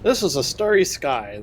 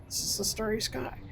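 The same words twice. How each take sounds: First: Said in the usual way. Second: Starry lifted into a high, soft question; high questioning rise. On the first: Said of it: "repeats the line to test". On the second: Shown as a demonstration. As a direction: ask it softly, pitched way up. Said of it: "repeats the line, rising".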